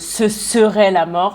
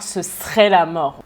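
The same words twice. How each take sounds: First: The 'e' in 'serait' is fully pronounced. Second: The 'e' in 'serait' is dropped. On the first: "Au lieu de" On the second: "on avale le « e » du « serait »"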